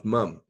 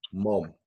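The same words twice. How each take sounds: First: "mum" said with a short British u vowel, as in "mum". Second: "mom" said with an open ah vowel, like "mahm"; American mom. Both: Shown as a demonstration. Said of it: "the way you pronounce mum".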